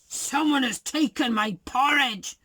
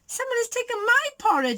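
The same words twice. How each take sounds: First: It is said in a big, deep voice. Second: It is said in a medium-sized voice.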